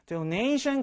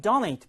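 First: "donation" accented after the first syllable; later-syllable stress. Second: "donate" opening on an accented DO; front stress. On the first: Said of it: "뒤에 강세 있습니다". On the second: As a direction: stress the first syllable of "donate". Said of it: "앞에 강세 있고요". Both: Shown as a demonstration.

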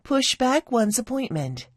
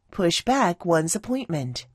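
First: Said in the usual way. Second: "back" carries the stress. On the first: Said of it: "들어볼게요". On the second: Shown as a demonstration. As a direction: model "Push back" with weight on "back". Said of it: "강세 뒤에 가야 돼요".

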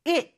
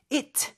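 First: "It" cut short with the t held back; "It" ending like a Korean siot batchim; unreleased final T. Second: "it" with an audible puff on the t; over-pronounced final t in "it"; released final T. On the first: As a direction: stop the t in "It" without releasing it. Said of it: "그냥 시옷 받침처럼 해주시면". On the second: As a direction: sound out the t at the end of "it". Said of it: "T 발음 내려고 하지 않으셔도". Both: Shown as a demonstration.

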